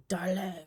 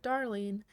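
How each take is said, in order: First: Mock French-accented "darling"; a playful go at a French accent. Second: Said in the usual way. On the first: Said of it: "with your lovely French accent". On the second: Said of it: "I can hear you say it with your lovely French accent".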